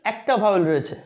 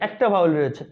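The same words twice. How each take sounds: The two takes are said the same way.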